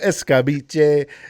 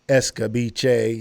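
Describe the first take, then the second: First: The word is said with dramatic flair. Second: The word is said plainly, without flair. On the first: The speaker calls it right. "you got to say it with a little flair" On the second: The speaker calls it wrong. "You can't just say escabiche"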